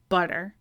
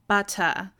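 First: The middle t is a quick soft flap. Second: The middle t is a crisp, clear stop. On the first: "In American English, we don't. It's butter" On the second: "a UK English speaker might say butter, they really enunciate that t sound"

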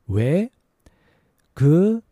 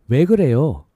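First: It is said slowly. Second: It is said fast.

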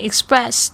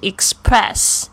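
First: The sound after s is soft, like b. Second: The sound after s is a strong puffed p. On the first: The speaker calls it right. "这个p 呢在这个s 的后面的发音的时候就会发成这个浊音的b" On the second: The speaker calls it wrong. "不是express"

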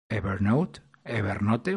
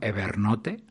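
First: The name is said with English pronunciation. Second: The name is said with Spanish pronunciation.

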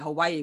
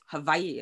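First: The name is said the westernized English way. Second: The name is said the native Hawaiian way. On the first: "because it's are westernized, pronounce it Hawaii" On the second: "but it's Hawaii or something"

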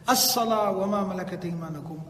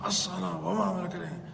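First: The phrase is spoken in a clear, normal voice. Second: The phrase is grunted and mumbled from the throat. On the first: The speaker still had the strength to speak. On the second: The speaker had lost his strength and voice.

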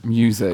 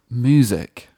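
First: The first syllable is said 'myoo' with a y-sound. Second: The first syllable is said 'moo' without a y-sound. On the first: The speaker calls it right. "So that's my New Year's resolution" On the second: The speaker calls it wrong. "You're saying it M-O-O? Like, yeah"

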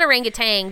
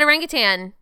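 First: The word ends with a g sound. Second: The word ends without a g sound. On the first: The speaker calls it wrong. "It's not orangutan. There's no G at the end" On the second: The speaker calls it right. "I said orangutan"

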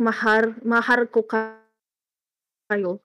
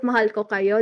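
First: The first word is said with an R sound. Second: The first word is said with an L sound. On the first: "they will say like mahar ko kayo" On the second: "instead of saying property of mahal ko kayo"

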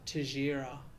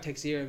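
First: The name is said with Brazilian Portuguese sounds. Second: The name is read as it looks in English. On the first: "the Brazilian pronunciation" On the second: "It looks like Teixeira"

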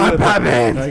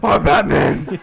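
First: It is said in a normal speaking voice. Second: It is said in a put-on gruff voice.

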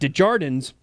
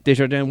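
First: The name is said with an American accent. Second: The name is said with a French accent.

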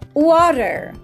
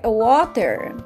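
First: It is said in an American accent. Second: It is said in a British accent.

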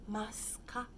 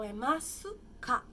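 First: The vowel after the s is nearly dropped. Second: The vowel after the s is clearly pronounced. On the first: "a gente fala um pouco mais rápido o su e parece um S apenas" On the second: "Então, é masuka"

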